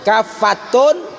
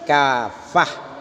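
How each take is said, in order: First: The word ends with a full 'tun' syllable. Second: The word ends with a soft 'h' sound. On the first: The reading continues without stopping. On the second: The reader stops on this word.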